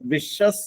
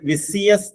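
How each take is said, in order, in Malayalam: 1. മധ്യത്തിലെ വ്യഞ്ജനം sh ശബ്ദമാണ്. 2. മധ്യത്തിലെ വ്യഞ്ജനം s ശബ്ദമാണ്. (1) "വിഷസ് എന്നാണ് അതിന്റെ ശരിയായ ഉച്ചാരണം" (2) "ആരും ഇതിന് വിസിയസ് എന്ന് ഉച്ചരിക്കരുത്"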